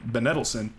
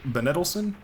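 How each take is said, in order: First: Said in the usual way. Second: Benedelson rising high, questioning; unsure name. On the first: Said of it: "settles on name". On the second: Shown as a demonstration. Commentator guessing a player name, unsure. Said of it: "unsure name reading".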